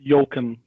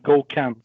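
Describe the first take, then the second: First: The name begins with a Y sound. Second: The name begins with a G sound. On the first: The speaker calls it wrong. "it's definitely not Yoken" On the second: The speaker calls it right. "It's Goken"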